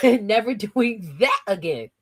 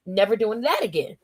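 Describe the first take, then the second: First: Slow, stretched stress on THAT; emphatic THAT. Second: Said in the usual way. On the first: Real, not acted. Swearing off caffeine to the chat, emphatic THAT. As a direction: draw out THAT for emphasis after a laugh.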